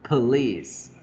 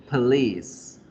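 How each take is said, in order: Both takes have the same delivery.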